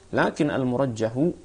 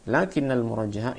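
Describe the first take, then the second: First: Lakin has no doubled n; the final vowel is u. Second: Lakinna has a doubled n; the final vowel is a. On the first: The word is read as the subject of the clause. "kita baca dengan dhammah" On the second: The word is read as the noun governed by lakinna. "itu juga bisa"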